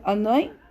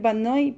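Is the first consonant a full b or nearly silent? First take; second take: nearly silent; full b. First: The initial b is nearly silent. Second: It starts with a full Spanish b sound. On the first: The speaker calls it right. "pero es Anoy Kashlangway" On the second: The speaker calls it wrong. "yo diría en español Banoy"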